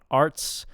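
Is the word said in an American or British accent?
American. It is said with an American accent. "for an American accent, we want arts"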